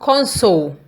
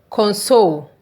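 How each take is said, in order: First: The stress is on the first syllable. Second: The stress is on the second syllable. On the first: It means a screen and controls. "With the stress being on C O N" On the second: It means to make someone feel better. "When the stress is on S O L E"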